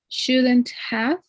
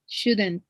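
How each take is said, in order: First: The word 'have' is pronounced in full. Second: The word 'have' is reduced to a 've' sound.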